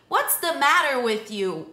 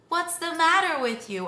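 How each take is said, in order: First: It sounds annoyed and critical. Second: It sounds gentle and concerned.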